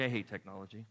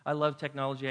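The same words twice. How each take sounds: First: "I hate technology" dropped lower and softer; grumbling hate. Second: Said in the usual way. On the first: Shown as a demonstration. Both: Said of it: "love/hate contrast".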